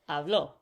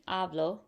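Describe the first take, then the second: First: The stress is on the last syllable. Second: The stress is on the first syllable. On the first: He or she spoke. "it's habló. He or she spoke" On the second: I speak. "instead of being hablo, which is I speak"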